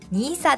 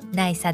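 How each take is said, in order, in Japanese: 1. 最初の音節は長い 'nee' に聞こえます。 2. 最初の音節は 'nai' に聞こえます。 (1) "ニーサです" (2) "ナイサではなく"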